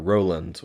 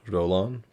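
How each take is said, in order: First: The name is said with an English pronunciation. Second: The name is said with a French pronunciation.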